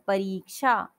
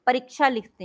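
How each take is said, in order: First: परीक्षा with री held long. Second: परीक्षा with a quick short रि; short i error. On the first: Teacher correcting a common mistake, long री in परीक्षा. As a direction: stretch री in परीक्षा to two beats. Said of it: "परीक्षा होता है". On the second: Teacher showing how children get it wrong, short रि in परीक्षा. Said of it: "छोटी की मात्रा लगाते हैं". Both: Shown as a demonstration.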